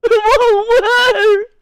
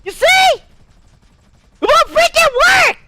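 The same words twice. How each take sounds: First: Slow, high mock-crying character voice; tearful version of the high put-on voice; crying variation. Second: Very high, strained character voice; high, forceful put-on voice giving out; failing put-on voice. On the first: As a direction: drag it out in a put-on wail. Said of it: "I can do variations of it". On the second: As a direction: push the high voice hard in frustration. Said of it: "won't freaking allow me to keep the voice going".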